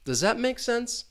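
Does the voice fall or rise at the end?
fall. The pitch falls at the end. The speaker is asking for confirmation. "it's going to fall with sense"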